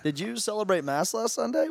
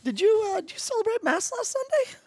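First: The question is spoken at a lower, normal pitch. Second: The question is spoken at a very high pitch.

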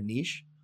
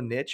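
First: The word is pronounced in a British way. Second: The word is pronounced in a non-British way.

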